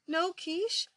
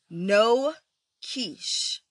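First: It rises at the end like a question. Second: It falls at the end, like an exclamation.

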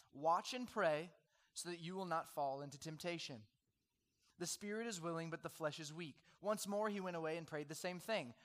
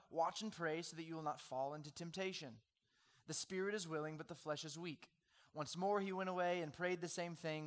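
No difference in how they are said.

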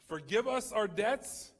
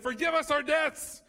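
First: It is said at a normal, even volume. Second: It is said very loudly, almost shouted. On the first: The whole prayer is meant equally. The speaker calls it right. "Jesus says it this way" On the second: Only the asking part is wanted. The speaker calls it wrong. "really loud. We scream it really loud"

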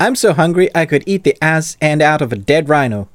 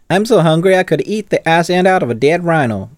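First: It is spoken without a Southern American accent. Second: It is spoken in a Southern American accent. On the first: The speaker calls it wrong. "I didn't do this in the right accent" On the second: The speaker calls it right. "That is my American accent, ... it went very southern"

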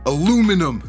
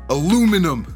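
First: It is said with an American pronunciation. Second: It is said with an American pronunciation.

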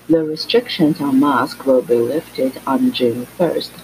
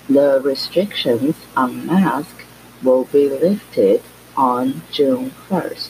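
First: The sentence is spoken at a normal pace. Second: The sentence is spoken at a slow pace.

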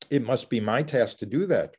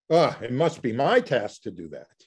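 First: It is said plainly and sincerely. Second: It is said with an exasperated sigh.

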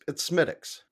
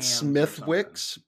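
First: No w sound is heard in the middle. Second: A w sound is heard in the middle. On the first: The speaker calls it right. "but it's Smithix" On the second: The speaker calls it wrong. "Some people pronounce it Smithwix"

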